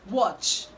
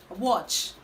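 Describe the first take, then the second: Both takes have the same delivery.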